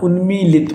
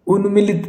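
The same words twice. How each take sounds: First: उन्मीलित with long "mee"; correct long i. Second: उन्मिलित with short "mi"; wrong short i. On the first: Teacher gives the correct उन्मीलित, long middle "ee". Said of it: "उन्मीलित होता है". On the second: Teacher rejects उन्मिलित, short middle "i". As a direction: say उन्मिलित as "un-mi-lit". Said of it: "उन्मिलित नहीं होता". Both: Shown as a demonstration.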